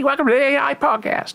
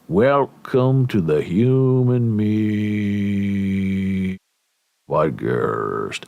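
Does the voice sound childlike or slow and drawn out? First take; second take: childlike; slow. First: It is said in a bouncy, childlike voice. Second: It is said very slowly and drawn out. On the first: "act like a little kid" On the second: "it's like molasses"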